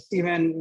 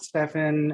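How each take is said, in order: First: The middle consonant is a V sound. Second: The middle consonant is an F sound. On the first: The speaker calls it right. "explain my name as uh, Stephen" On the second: The speaker calls it wrong. "not Stefan"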